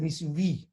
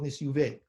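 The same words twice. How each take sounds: First: "Nisyuvi" ending in an "ee" vowel. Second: "Nisyuve" ending in an "eh" vowel; common -VE ending. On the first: Teacher quotes his rabbi's pronunciation, "Nisyuvi" ending vee. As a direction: end "Nisyuvi" on vee, not veh. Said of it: "He said Nisyuvi". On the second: Teacher gives most people's pronunciation, "Nisyuve" ending veh. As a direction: end "Nisyuve" on veh, not vee. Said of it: "Most people call it Nisyuve". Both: Shown as a demonstration.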